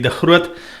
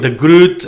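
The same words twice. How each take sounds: First: The name is said the Afrikaans way. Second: The name is said the New Zealand way.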